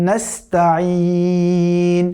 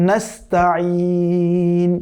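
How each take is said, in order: The two takes are said the same way.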